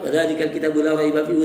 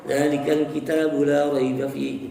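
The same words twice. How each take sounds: First: It is read fast with the long vowels lost. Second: It is read slowly with the long vowels kept. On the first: "Tapi kalau sudah dibaca cepat" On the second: "Itu kan ya, masih"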